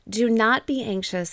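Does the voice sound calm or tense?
calm. It is said in a calm, gentle voice. It reassures the listener. "That won't make you anxious when I talk that way"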